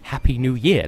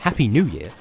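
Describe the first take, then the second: First: The words carry the American stress pattern. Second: The words carry a non-American stress pattern. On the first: The speaker calls it wrong. "I don't understand how Americans stress it that way. It's like" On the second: The speaker calls it right.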